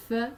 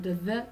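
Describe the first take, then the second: First: "th" as a voiceless breath between the teeth; "th" with no buzz in the throat; unvoiced th. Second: "the" as a buzzed th sound with a short vowel; voiced th in "the", tongue tip out. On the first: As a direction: blow air over the tongue tip for "th". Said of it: "th is unvoiced". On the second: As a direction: let the throat vibrate on the th of "the". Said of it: "the is voiced". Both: Shown as a demonstration.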